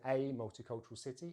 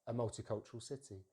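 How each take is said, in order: First: The article is a full 'ay' vowel. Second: The article is a weak schwa vowel. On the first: The speaker calls it wrong. "instead of saying" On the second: The speaker calls it right. "we just use the schwa sound"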